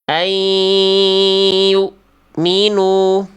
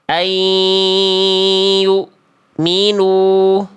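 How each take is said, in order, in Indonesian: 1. Bunyi n melebur ke y yang sengau dan ditahan. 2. Bunyi n melebur ke y yang sengau dan ditahan.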